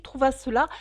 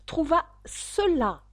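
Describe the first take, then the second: First: Said in the usual way. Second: Higher and slower, "Trouva cela" pressed out word by word; repeating "Trouva cela" slowly to the duck with impatience; impatient. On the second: A narrator's reading. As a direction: stress "Trouva" with exasperation. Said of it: "répondit la souris avec impatience".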